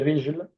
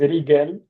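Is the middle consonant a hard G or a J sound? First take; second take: J sound; hard G. First: The middle consonant is a soft J sound. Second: The middle consonant is a hard G sound. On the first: The speaker calls it right. "Mais en fait, c'est rijl" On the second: The speaker calls it wrong. "Parfois ils disent rigel, rigel parce que euh, en fait, c'est les Égyptiens qui prononcent le G comme ga"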